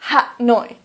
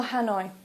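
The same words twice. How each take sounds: First: "Ha Noi" said as two syllables, Vietnamese style; Vietnamese pronunciation. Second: "Hanoi" said the English way, ha-NOY; English "Hanoi", no tones; English pronunciation. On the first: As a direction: say "Ha Noi" the native way. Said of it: "Please don't say". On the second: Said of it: "for example". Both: Shown as a demonstration.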